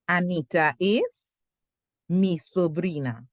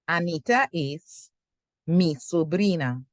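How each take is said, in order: First: The sentence is broken up with a pause. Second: The sentence is broken up with a pause.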